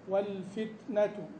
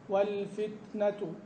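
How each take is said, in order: Both takes have the same delivery.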